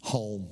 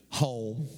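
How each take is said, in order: First: "Home" said low with a falling tune; low, final "Home". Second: "Home" said low with a rising tune; "Home" repeated with an upward lilt. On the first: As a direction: drop the voice on "Home" like a verdict. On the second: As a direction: lift "Home" at the end like a question. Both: Shown as a demonstration. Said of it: "the number one place where you get angry is home".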